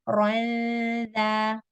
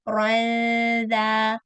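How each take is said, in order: Both takes have the same delivery.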